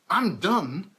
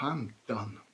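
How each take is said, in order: First: It sounds assertive and angry. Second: It sounds defeated and resigned, with a sigh.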